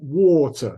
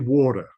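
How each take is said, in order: First: It is said in a British accent. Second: It is said in an American accent. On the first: "for the British we say water" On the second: "The Americans sometimes say water"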